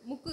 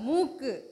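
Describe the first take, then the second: First: The first vowel is short. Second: The first vowel is long. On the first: The speaker calls it wrong. "ముక్కు కాదు" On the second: The speaker calls it right.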